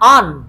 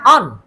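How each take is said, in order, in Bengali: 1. R শব্দটি নীরব থাকে। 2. R শব্দটি নীরব থাকে।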